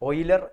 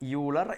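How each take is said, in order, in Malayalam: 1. ഈ പേര് 'oy' ശബ്ദത്തിലാണ് തുടങ്ങുന്നത്. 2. ഈ പേര് 'yoo' ശബ്ദത്തിലാണ് തുടങ്ങുന്നത്. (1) "ഓയിലർ എന്ന് വായിക്കാം" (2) "നമ്മൾ ഇന്ത്യക്കാർ ഇയാളെ ലിയോൺഹാർഡ് യൂളർ എന്നും വായിക്കാറുണ്ട്"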